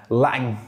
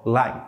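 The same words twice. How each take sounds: First: Second "lang" with its ending sound released after the stop; emphatic released ending. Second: Said in the usual way. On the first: Shown as a demonstration. Teacher showing extra stress, "lang" with the ending re-released. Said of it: "do that ending sound if they really want to enunciate clearly". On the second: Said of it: "do that ending sound".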